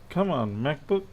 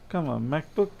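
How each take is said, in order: The two takes are said the same way.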